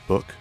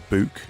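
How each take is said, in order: First: Said with the speaker's usual accent. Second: Said with a local regional accent. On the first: This is the usual way to say it. "instead of book" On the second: This is how people there say it. "they say book"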